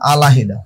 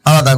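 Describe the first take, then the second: First: The syllable 'hi' is heard in the middle. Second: The syllable 'hi' is not heard in the middle. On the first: "হস্কের হি" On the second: "এ পাশে গেলে হবে আলাদা"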